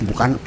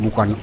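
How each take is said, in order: The two takes are said the same way.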